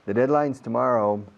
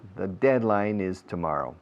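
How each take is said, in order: First: The word 'is' is contracted onto 'deadline'. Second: The word 'is' is said in full.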